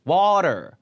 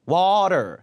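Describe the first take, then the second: No difference in how they are said.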